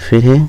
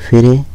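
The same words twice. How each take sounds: Both takes have the same delivery.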